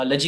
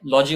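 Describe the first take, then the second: First: "लॉजी" with a short vowel, luh-jee; लॉजी reduced to luh-jee; correct ending. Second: "लॉजी" with a full open LAW-jee; लॉजी with a long aw vowel; incorrect ending. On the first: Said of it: "correct pronunciation लजी होता है". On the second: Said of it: "लॉजी बोलने से incorrect होता है". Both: Shown as a demonstration.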